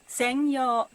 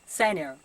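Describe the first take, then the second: First: The n is held as its own syllable. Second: The n runs into the following vowel. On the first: The speaker calls it right. "but 専用" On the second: The speaker calls it wrong. "It's not senior"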